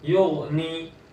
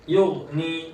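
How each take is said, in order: The two takes are said the same way.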